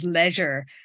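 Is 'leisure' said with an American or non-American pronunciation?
non-American. Leisure is said in the speaker's own non-American way. "what we say as"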